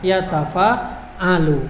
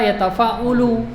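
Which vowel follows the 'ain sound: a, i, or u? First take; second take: a; u. First: The vowel after the 'ain is a. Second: The vowel after the 'ain is u. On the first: The speaker calls it right. "Karena polanya" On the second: The speaker calls it wrong.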